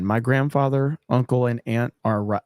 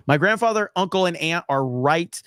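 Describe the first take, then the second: First: Lower, hushed mock ASMR; mock ASMR read. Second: Said in the usual way. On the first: Shown as a demonstration. Streamer reads chat donation in joking ASMR, lower and hushed. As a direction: lower and hush the read for a joke. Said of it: "Let me go A S M R". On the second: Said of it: "I don't wanna do it for that one".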